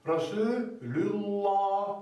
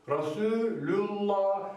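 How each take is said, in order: First: "Rasulullah" very slow, the LL thick and dark; recitation with heavy L. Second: "Rasulullah" slow, the LL thick and dark; recitation with heavy L. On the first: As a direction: stretch out "Rasulullah", thickening the lam. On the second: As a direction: model "Rasulullah" again, heavy lam. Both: Shown as a demonstration. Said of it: "Lamın kalını da budur".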